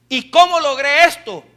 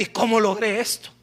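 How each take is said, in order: First: "cómo logré esto" louder, punched out; emphatic repeated question. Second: Said in the usual way. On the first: Retold or imitated. Preacher voices someone wondering at success, question asked loudly and emphatically.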